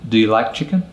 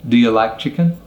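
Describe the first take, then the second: No difference in how they are said.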